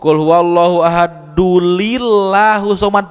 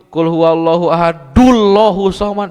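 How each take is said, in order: First: The n is dropped and an extra li added. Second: The n is dropped and joined straight to l. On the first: "Komo ... make jeung aya lam" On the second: "ulah kieu ... salah"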